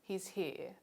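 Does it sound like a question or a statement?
statement. It is said with a statement melody. It states a fact.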